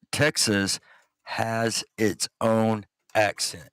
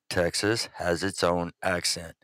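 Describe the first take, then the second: First: "Texas has its own accent" word by word, slowly; very clear emphasis. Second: Said in the usual way. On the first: Real, not acted. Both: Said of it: "Let me make this very, very clear".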